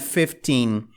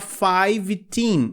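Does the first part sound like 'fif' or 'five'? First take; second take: fif; five. First: The first part has a short 'fif' vowel. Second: The first part has the long vowel of 'five'. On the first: The speaker calls it right. "é fifteen" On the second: The speaker calls it wrong. "erros que as pessoas cometem muito... Não existe five teen"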